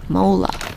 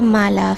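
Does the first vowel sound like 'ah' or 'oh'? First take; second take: oh; ah. First: The first vowel sounds like 'oh'. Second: The first vowel sounds like 'ah'. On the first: The speaker calls it right. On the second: The speaker calls it wrong.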